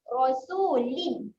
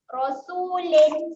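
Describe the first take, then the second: First: The last syllable sounds like 'lin'. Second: The last syllable sounds like 'len'. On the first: The speaker calls it right. "kita akan bunyi dengan L I N" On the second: The speaker calls it wrong. "Jangan bunyikan dengan L E N. L E N salah. Rasulin salah"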